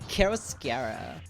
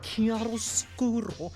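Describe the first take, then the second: First: The word has an English pronunciation. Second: The word has an Italian pronunciation.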